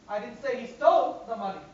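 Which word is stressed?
stole. The word stole is stressed. He took or borrowed it rather than stealing it. "Maybe he took it, borrowed it"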